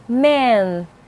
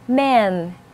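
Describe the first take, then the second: No difference in how they are said.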